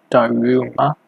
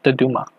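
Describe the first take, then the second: First: "Daruma" said the English way, with a long "roo" in the middle; English-speaker pronunciation. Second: "Dodoma" said the Japanese way, with a quick tapped middle consonant; Japanese pronunciation. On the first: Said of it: "a lot of people might pronounce it". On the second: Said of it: "in Japanese, that we could, it's pronounced". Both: Shown as a demonstration.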